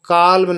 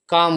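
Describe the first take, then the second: First: The L sound is pronounced in the word. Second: The L sound is left out of the word. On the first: The speaker calls it wrong. "इसको काल्म नहीं बोलते" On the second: The speaker calls it right. "एल silent होता है, काम बोलते"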